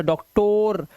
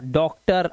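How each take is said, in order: First: "डॉक्टर" ending in a long "-tor"; wrong spelling pronunciation. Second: Said in the usual way. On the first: Shown as a demonstration. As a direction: drag out an O in the last syllable of "डॉक्टर". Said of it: "अभी से डॉक्टर". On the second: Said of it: "अर की आवाज आई देखो".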